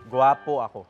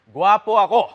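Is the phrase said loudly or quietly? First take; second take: quietly; loudly. First: It is said at a normal, quieter volume. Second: It is said loudly, almost shouted.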